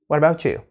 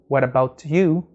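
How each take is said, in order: First: The t and you blend into ch. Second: The t and you are said separately. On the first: "you can put it together and say what about you" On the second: "instead of saying what about you"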